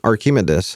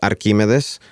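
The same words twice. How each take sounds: First: The name is said with English pronunciation. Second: The name is said with Spanish pronunciation. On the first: "Or in English accent" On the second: "In Spanish, it's Archimedes. That's how we pronounce it"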